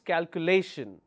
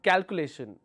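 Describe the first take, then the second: First: The stress falls on the third syllable. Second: The third syllable is not the stressed one. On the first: The speaker calls it right. "So my L A, lay, will take the stress" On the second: The speaker calls it wrong. "It's not calculation"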